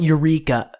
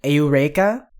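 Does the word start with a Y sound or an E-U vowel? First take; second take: Y sound; E-U vowel. First: It starts with a Y sound, English style. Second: It starts with separate E and U vowels. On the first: The speaker calls it wrong. "standard English way" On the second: The speaker calls it right. "leaving out that weird invisible Y sound"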